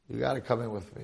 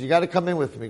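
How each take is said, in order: First: Said in the usual way. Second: Louder, pressing demand; forceful insistence. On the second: Acted. The demon chief orders the mohel into his warehouse, loud and insistent. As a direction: push him through the door with your voice.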